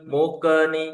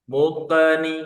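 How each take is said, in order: The two takes are said the same way.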